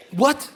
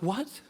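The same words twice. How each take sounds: First: Loud, high, rising what; loud disbelief. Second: Small, rising, puzzled what; stunned question. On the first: Seventeen-year-old to French kid, loudly shocked. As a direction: burst out incredulous, voice jumping up. Retold stunned reply, bigger second take. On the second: Seventeen-year-old caught off guard, quietly baffled. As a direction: ask it quietly with a sharp upward lift. Retold stunned reply, first take. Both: Retold or imitated.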